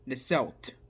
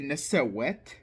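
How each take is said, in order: First: No vowel is inserted between s and w. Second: An extra vowel is inserted between s and w. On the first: The speaker calls it right. "I don't feel the need to like add the e in between everything" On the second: The speaker calls it wrong. "I'm not gonna say nisewet"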